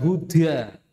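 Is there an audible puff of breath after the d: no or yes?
yes. The d is released with a puff of breath. The speaker calls it wrong. "bukan huda"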